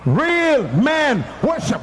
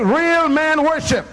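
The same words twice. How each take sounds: First: Slow shouted chant; chanted, shout it out slowly; louder chant. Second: Slow, higher chant; call to congregation. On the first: Chanted, preacher urging the men to shout it louder. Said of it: "Say it loud". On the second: Preacher leading the men in a slow chant. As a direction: lead the men, slow and high. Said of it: "All the men say". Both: Shown as a demonstration.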